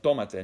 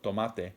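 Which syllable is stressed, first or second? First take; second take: first; second. First: The stress is on the first syllable. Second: The stress is on the second syllable. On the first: It means take it yourself. The speaker calls it right. "but tomate. Notice how it has to have an accent written over the O" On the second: It means a tomato. The speaker calls it wrong. "Not tomato, tomate"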